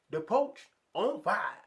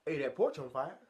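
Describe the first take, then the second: First: "The porch on fire." said much higher, slower and louder, leaning on porch; slow emphatic repeat. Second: Said in the usual way. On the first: Retold or imitated. Neighbor repeating the warning slowly, stressing porch. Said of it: "He said". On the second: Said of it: "he said".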